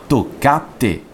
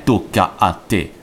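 First: "tocca a te" with the two a's fused into one; vowels merged. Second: Slow "tocca a te" with both a's sounded apart; "tocca a te" as detached syllables, toc-ca-a-te; hiatus between vowels. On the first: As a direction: slowly say "tocca a te" as three syllables, toc-ca-te. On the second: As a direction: separate the two a's in "tocca a te". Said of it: "e poi spiegai: "Non è tocca a te, ma tocca a te". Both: Shown as a demonstration.

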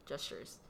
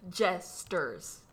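First: 'gestures' said softly and quickly with a SH in the middle; accented mispronunciation. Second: 'Jesters' slowly, in two clear syllables, JES-ters; slow, corrected pronunciation. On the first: Co-host replaying her old mistake, accented mispronunciation. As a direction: drop 'gestures' out low and quiet, SH for ST. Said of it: "I would always pronounce it as". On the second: Co-host correcting her own mistake, slow and careful. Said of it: "I said it, like, really slowly". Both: Retold or imitated.

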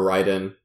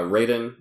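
First: Raiden, first syllable rhyming with eye; Raiden as "RYE-den". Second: Raiden, first syllable rhyming with day; Raiden as "RAY-den". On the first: Host offering the other pronunciation, Raiden as "RYE-den". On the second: Host naming a game pickup, Raiden said as "RAY-den". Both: Shown as a demonstration. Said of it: "however you wanna pronounce it".

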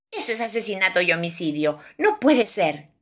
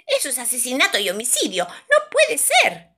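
First: Fish's milder protest. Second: Mosquito's shrieked protest. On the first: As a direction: protest briskly, raise it only on the last words. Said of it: "grita el pez". (protesta de pez, grito contenido) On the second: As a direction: protest fast, then wail the last words high. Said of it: "grita el mosquito". (protesta chillona y aguda de mosquito) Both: A narrator's reading.

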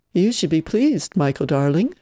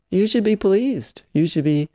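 First: A hint of a mock-posh aunt, pleased stretched out; lightly put-on refined tone, looking down her nose; pseudo-cultured voice. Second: Mocking pseudo-cultured voice. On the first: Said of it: "she'd intoned in her pseudo-cultured voice". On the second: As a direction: parody the aunt's put-on refinement. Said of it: "pseudo-cultured voice".

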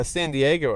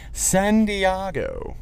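First: Said in the usual way. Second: San Diego drawn out slowly as "San Dee-AH-go"; Ron Burgundy. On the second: Acted. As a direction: stretch San Diego higher and very slow, with an "ah" in Diego. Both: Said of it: "as, uh, Ron Burgundy would say".

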